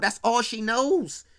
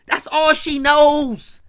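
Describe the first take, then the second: First: Said in the usual way. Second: Slow and louder on That's all she knows; slow emphatic repeat. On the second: Real, not acted. Slow, louder repeat to drive the point home.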